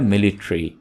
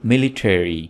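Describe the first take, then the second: First: The word is said the casual, common way. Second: The word is said the careful, standard way. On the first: The speaker calls it wrong. "आमतौर पर इस word को बोला जाता है मिलिट्री" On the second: The speaker calls it right. "इसकी सही pronunciation है मिलिट्री"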